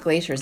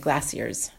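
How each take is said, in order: First: It is said in an American accent. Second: It is said in a British accent. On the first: "They're not glaciers" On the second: "my announcer has a little British accent"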